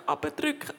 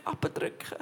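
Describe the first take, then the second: First: Said in the usual way. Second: "abdrücken" breathed out as a faint whisper; the last "abdrücken" whispered as the voice gives out; fading to a whisper. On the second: Real, not acted. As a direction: let "abdrücken" die away into a whisper. Repeating the word, fading.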